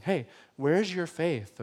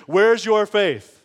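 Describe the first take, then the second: First: Soft, slow, kindly asked; gentle question. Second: Louder, slow scolding question; harsh rebuke. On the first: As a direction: ask it tenderly, no rebuke. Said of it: "just kinda telling them". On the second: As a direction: scold them for their lack of faith. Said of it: "with a tone of like". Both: Pretend.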